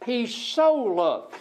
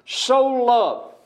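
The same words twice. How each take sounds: First: "He so loved" drawn out slowly, "so" held long; slowed-down preacher's emphasis on "so"; slow stress on so. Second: "so" hit high and loud, then "loved" falls away; preacher punching "so" to show how much God loved; stress on so. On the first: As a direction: linger on "so" to show the depth of the love. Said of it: "It shows how much God loved". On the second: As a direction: lean hard on "so" with a raised, louder voice. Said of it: "that word so". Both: Shown as a demonstration.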